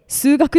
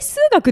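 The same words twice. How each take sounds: First: It has the standard Kanto pitch pattern. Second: It has a Tohoku-style pitch pattern. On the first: "え数学でしょって言われて" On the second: "え数学でしょみたいな"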